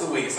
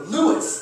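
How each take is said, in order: First: "Luis" as loo-EES, stress at the end; corrected name. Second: "Lewis" as LOO-iss, pitched up; mispronounced name. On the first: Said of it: "And I'm just like". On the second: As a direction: say "Lewis" as an English name, questioning rise. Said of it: "and just go". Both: Retold or imitated.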